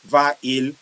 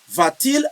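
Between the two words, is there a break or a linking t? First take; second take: break; linking t. First: The two vowels meet with a break between. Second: A t sound joins the two words smoothly. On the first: The speaker calls it wrong. "You say I'm breaking" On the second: The speaker calls it right. "You see, I flow well"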